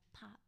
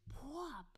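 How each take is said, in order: First: The word is said small and soft. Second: The word is said big and loud. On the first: The outburst was minor. "It was a little pop" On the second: The outburst was major. "It wasn't like a big pop"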